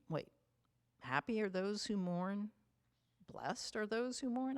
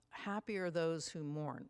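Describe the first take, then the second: First: Rising, higher puzzled questions; half-mocking a confused listener's wait, what?; puzzled disbelief. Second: Said in the usual way. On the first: Preacher voicing a confused listener hearing the Beatitudes, puzzled. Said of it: "and you're thinking". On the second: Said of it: "we sit there and we say".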